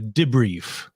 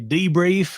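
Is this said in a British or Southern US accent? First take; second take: British; Southern US. First: It is said in a British way. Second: It is said in a Southern US way. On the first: "they'd certainly, most certainly say debrief" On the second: "here in the sweet sunny South where I'm from, I'd say debrief"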